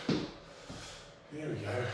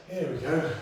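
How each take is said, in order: First: Slow, soft, drawn-out groan of the words "Here we go"; drawn-out low murmur. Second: Said in the usual way. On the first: Shown as a demonstration. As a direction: sag into "Here we go" slowly and softly.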